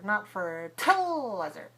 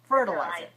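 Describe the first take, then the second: First: The second syllable is full, not weak. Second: The second syllable is weak and short. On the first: The speaker calls it wrong. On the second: The speaker calls it right. "So the second syllable is also weak"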